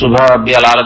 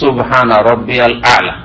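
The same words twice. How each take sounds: First: It is said fast, with the words blurred together. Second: It is said at an even pace, each word distinct. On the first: The speaker calls it wrong. "যেমন এক সেই লোকেরা পড়ে" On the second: The speaker calls it right. "স্পষ্ট"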